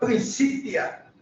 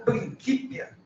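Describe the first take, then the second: First: It uses the medieval church Latin pronunciation. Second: It uses the classical Roman Latin pronunciation. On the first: This is how it was said in Newton's time. The speaker calls it right. "como se falava" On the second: This is how an ancient Roman would have said it. The speaker calls it wrong. "e não Principia. Principia é como falaria um, um romano do tempo de Virgílio"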